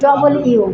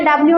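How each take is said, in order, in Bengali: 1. এটি দুটি শব্দ 'double you' হিসেবে উচ্চারিত হয়। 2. এটি একটি মিলিত শব্দ 'dabliu' হিসেবে উচ্চারিত হয়। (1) "এটা ডবল ইউ" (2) "এটা ডাব্লিউ না"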